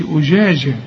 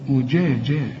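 First: Wrongly blur each ج into zh; jim softened toward shin. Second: أجاجا as ujaaja, firm dj sounds; lower, crisp dj for each ج; correct affricate jim. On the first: Teacher shows what not to say, slurred jim. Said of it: "ما خلطهاش بالشين". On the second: Teacher corrects students, properly articulated jim. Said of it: "الجيم معطشة إزاي". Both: Shown as a demonstration.

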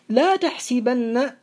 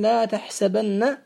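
First: تحسبن said tahsibanna with i, slow and clear; with kasr. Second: تحسبن said tahsabanna with open a, slow; with fath. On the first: Teacher quoting the Prophet's wording slowly with kasr. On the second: Teacher showing students the form that was not said. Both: Shown as a demonstration. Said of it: "ولم يقل".

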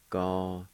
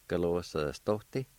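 First: "Galosostote" with a long pause after each syllable. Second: "Galosostote" run together as one word; joined-up word. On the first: Teacher modelling the word for fabricate, "Galosostote" syllable by syllable. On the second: Teacher giving the whole word for fabricate, "Galosostote" joined up. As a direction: say "Galosostote" straight through without pauses. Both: Shown as a demonstration. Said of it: "pronounced like this".

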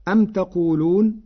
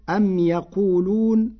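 First: Said in the usual way. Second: "أم يقولون" opening the verb with ي, "yaqulun"; third-person yaa. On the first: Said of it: "قرأ ورش كلمة". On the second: Shown as a demonstration. Teacher showing Warsh's reading, "أم يقولون" with a ya. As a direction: say "ya" in place of "ta" in "أم يقولون". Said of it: "بياء الغيب".

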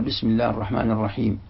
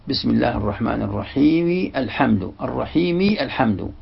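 First: الرحيم ends on a silent mim, no vowel after it; stop on sukun. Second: الرحيم joined to الحمد, final mim voiced with kasra, reħimi alħamdu; connected reading. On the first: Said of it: "لكنك تقف بالسكون". (الوقف على الرحيم بسكون الميم) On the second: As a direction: run الرحيم straight into الحمد with the vowel on the mim. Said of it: "هي متحركة عند الوصل". (وصل الرحيم بالحمد بتحريك الميم بالكسر) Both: Shown as a demonstration.

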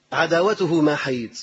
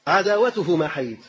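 First: عداوته ما حيد said slowly, each word weighed; slow emphatic repeat. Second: Said in the usual way. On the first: Shown as a demonstration. Preacher repeating the slogan slowly to the congregation. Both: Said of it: "انظر إلى هذه العبارة".

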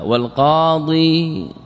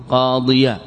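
First: Said in the usual way. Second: "قاضيا" with the final ya voweled, ending in an open -ya; voweled word ending. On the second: Shown as a demonstration. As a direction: sound the fatha on the end of "قاضيا". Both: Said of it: "بالتحريك".

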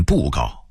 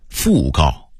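First: 布告 (bùgào) said for fùgào; Beijing-style bù in 布告; Beijing dialect reading. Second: Said in the usual way. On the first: Shown as a demonstration. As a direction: open 布告 on b, not f. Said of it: "北京话念". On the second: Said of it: "北京话念布告".

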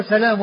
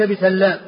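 First: سلام with one light l, "salam"; lightened lam. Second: بسلام with a double l, "bi-sallam"; doubled lam. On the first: Teacher on the grandfather's name, سلام as "salam". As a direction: keep the ل single in سلام. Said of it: "وهو من قبيل ما هو مخفف". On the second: Teacher ruling out a reading, بسلام as "bi-sallam". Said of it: "وليس من قبيل ما هو مثقل". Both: Shown as a demonstration.

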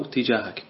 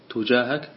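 First: Tijahak, with a short i after the t; تجاهك opening with "ti"; first vowel i. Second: Tujahak, with a short u after the t; تجاهك opening with "tu"; first vowel u. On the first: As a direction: say تجاهك as "tijāhak", kasra on the ta. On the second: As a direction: say تجاهك as "tujāhak", damma on the ta. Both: Shown as a demonstration. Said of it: "يجوز الوجهان".

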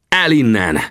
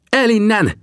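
First: Raised, higher-pitched sharp command; barked order. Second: High-pitched urgent cry; shouted warning. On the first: Narrator drives Tangua off the fallen chief, sharp raised shout. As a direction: order him off forcefully, without a full scream. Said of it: "rivaltam rá". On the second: Sam urges companions to flee, high urgent shout. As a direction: call out high and strained to get away. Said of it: "kiáltotta Sam". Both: A narrator's reading.

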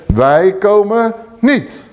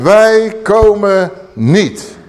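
First: Slow, drawn-out, higher; preacher repeats the rebels' answer, slow and drawn out; repeated defiant refusal. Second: Slow, loud, drawn-out refusal; stubborn rebels refusing Moses, slow and loud; defiant refusal. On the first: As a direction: spell out the refusal word by word. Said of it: "Wat zeggen ze nog een keer?". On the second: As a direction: drag out each word, defiant. Preacher voices refusing rebels. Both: Acted.

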